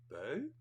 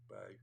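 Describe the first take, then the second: First: The pitch rises at the end. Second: The pitch stays level or falls at the end. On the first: The speaker calls it right. "I think you have to go up" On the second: The speaker calls it wrong. "it was a question mark"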